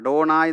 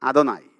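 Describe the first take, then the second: First: The d and n sounds are hard and retroflex. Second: The d and n sounds are soft and dental. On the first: The speaker calls it wrong. "നമ്മളീ പക്ക അഡോണായി എന്ന് പറയരുത്" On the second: The speaker calls it right. "അദോനായി എന്ന് പറഞ്ഞാൽ മതി"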